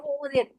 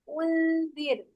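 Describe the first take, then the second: First: The lips stay rounded, giving a w-like sound. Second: The lips relax, giving a nasal n sound. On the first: The speaker calls it wrong. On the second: The speaker calls it right.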